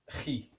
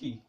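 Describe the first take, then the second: First: The sound is strong and harsh in the throat. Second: The sound is soft, just breath passing through. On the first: "en Espagne, ils prononcent beaucoup plus fort cette son-là" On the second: "C'est que de l'air, de l'air qui passe"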